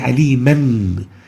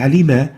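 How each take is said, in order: First: The word ends in a short a and n. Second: The word ends in a lengthened a vowel. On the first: The reciter continues without stopping. The speaker calls it wrong. "we don't say aliman" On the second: The reciter stops at the end of the verse. The speaker calls it right. "we say alima"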